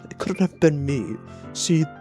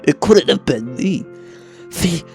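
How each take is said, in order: First: It is read in the speaker's own voice. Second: It is read in Yuri's voice.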